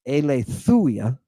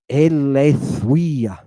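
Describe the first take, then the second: First: "aletheia" as ay-lay-THOO-yah, without the W glide; wrong pronunciation. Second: "aletheia" slowly as ay-lay-THWEE-ah, with a W glide; digamma pronunciation. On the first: Teacher showing students the mistake, "aletheia" as ay-lay-THOO-yah. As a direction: say "aletheia" with an oo after the th. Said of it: "It's not aletheia". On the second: Teacher correcting the mistake for students, "aletheia" as slow ay-lay-THWEE-ah. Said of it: "The W sound that comes before this upsilon". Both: Shown as a demonstration.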